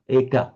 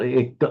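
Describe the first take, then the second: First: The final vowel is more open. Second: The final vowel is a short neutral vowel. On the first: This is the northern pronunciation. "It's more slightly more open in northern eka" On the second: This is the Sinhala pronunciation. "not eka"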